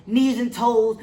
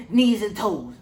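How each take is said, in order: Both takes have the same delivery.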